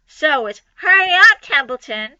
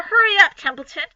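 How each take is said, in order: First: A light mock of the pig's high plea; mocking Wilbur. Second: High, loud hurry-up; urgent plea. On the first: Templeton lightly mimicking Wilbur's high hurry. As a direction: mimic Wilbur to tease him. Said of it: "He began imitating Wilbur's voice". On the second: Acted. Wilbur urging Templeton to hurry, high and loud. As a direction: press the rat to hurry.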